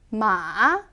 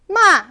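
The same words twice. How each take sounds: First: The pitch is low, dipping then rising. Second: The pitch falls sharply from high to low. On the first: It means horse. "내려왔다가 올라가는 음" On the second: It means to scold. "확 떨어지는"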